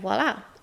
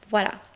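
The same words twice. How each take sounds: First: It is said with an English accent. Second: It is said with a French accent.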